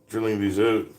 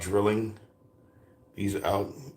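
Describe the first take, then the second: First: It is said in a put-on Canadian accent. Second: It is said in the speaker's plain accent.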